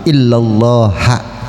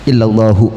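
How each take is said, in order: First: The word ends with an a vowel. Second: The word ends with a u vowel. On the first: "beramal jadi illallaha boleh" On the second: "Kalau hu berarti illallahu"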